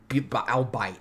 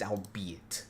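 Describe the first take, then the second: First: The word ends with a sound like 'bite'. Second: The word ends with two syllables, 'be-it'. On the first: The speaker calls it wrong. "The fact that I pronounce it like that" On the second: The speaker calls it right. "it's albeit"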